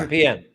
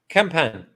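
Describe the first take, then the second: First: The name has an extra 'ee' sound before 'an'. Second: The name has no 'ee' sound before 'an'. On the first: The speaker calls it wrong. "Just Campan, not Campian" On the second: The speaker calls it right. "No, Campan"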